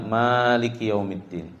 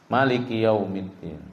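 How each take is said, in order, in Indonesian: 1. Vokal pertama pada Maliki panjang. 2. Vokal pertama pada Maliki pendek. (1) "dibaca ada alifnya" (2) "bihadzfil alif, tidak membaca Malik di situ dengan bacaan panjang"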